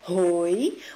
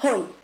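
First: The word is drawn out long. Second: The word is said short and clipped. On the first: The speaker calls it right. "Man tut lang betonen" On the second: The speaker calls it wrong. "und nicht kurz"

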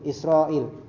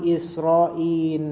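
First: The final syllable has a short i before l. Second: The word ends with an n instead of l. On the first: "enggak pakai ya" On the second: "Lamnya diganti nun"

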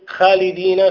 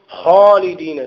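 First: The first consonant is light, not emphatic. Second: The first consonant is heavy and emphatic. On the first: The speaker calls it wrong. "لا تقول خالدين فيها" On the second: The speaker calls it right. "تقول خالدين فيها"

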